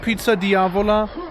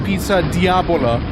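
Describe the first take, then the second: First: The middle consonant is a v sound. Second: The middle consonant is a b sound. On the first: The speaker calls it right. "it's like called Pizza Diavola" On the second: The speaker calls it wrong. "I used to like mispronounce it"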